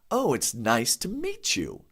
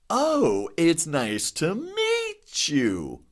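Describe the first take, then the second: First: It is said with normal, everyday expression. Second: It is said with strongly exaggerated pitch changes. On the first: "if I say" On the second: "Really exaggerate those changes in my voice"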